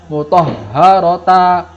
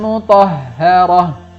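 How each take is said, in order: First: The word ends with a t and an a. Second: The word ends with a silent-vowel h sound. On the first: The speaker calls it wrong. "bukan mutahharata, bukan" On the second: The speaker calls it right. "hak sukun"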